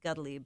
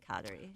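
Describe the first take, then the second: First: The name is pronounced the Mohawk way. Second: The name is pronounced the English way. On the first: This is how the community itself says it. "within the Mohawk community, it's Gudli" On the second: Most outside people understand this form. "but we usually say Kadri"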